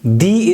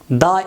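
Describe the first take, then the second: First: The word is said in its full, strong form. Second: The word is said in its reduced, weak form. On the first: The following noun is emphasized. "the is strong form" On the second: The following noun is not emphasized. "The is weak form"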